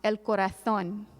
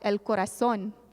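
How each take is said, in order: First: The z sounds like th, Spain style. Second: The z sounds like s, Mexican style.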